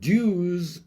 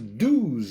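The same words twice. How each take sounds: First: It is said the Irish way. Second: It is said the New York way.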